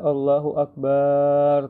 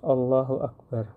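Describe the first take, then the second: First: The vowel after the b is drawn out. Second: The vowel after the b is kept short. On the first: The speaker calls it wrong. "memperpanjang huruf ba dari kalimat akbar. Bukan Allahu Akbar" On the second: The speaker calls it right. "Harus Allahu Akbar, jelas"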